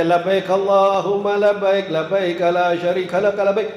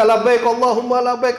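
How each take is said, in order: First: Slow, steady devotional chant; heartfelt talbiyah recitation. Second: Casual modern talbiyah. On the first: Pilgrim of earlier years reciting talbiyah, slow heartfelt chant. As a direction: recite slowly on an even tone. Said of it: "saya berasa banget nih". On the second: Today's pilgrim about to grab a phone, casual talbiyah. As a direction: recite it higher, moving straight on. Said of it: "enggak lagi". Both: Retold or imitated.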